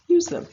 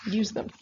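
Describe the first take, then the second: First: High, loud command; emphatic. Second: Said in the usual way. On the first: Shown as a demonstration. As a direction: stress USE them. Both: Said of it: "repeated command".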